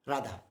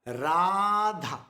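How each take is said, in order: First: "Radha" quick, with a short first vowel; clipped wrong form. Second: "Radha" with Ra held long and loud, dha short. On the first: Teacher showing what we don't say, "Radha" short and low. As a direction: rush "Radha" with no held Ra. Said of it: "We don't say Radha". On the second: Teacher correcting the quick form, Ra drawn out loud. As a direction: stretch the Ra of "Radha" loudly, drop quickly onto dha. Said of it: "Ra is long". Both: Shown as a demonstration.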